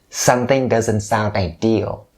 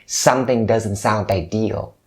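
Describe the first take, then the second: Both takes have the same delivery.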